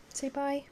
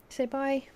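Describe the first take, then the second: First: High and soft; pet voice, softer. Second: High sing-song prompt; pet voice. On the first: Owner coaxing the dog softly. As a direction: coax the dog gently. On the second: Owner prompting the dog, high sing-song. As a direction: lift it up for the dog. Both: Real, not acted.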